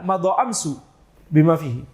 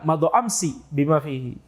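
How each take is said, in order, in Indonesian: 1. Kata kedua berakhir dengan vokal u. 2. Kata kedua berakhir dengan vokal i. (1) "sebagian kecil Banu Tamim akan mengatakan" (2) "Kalau penduduk Hijaz mengatakan"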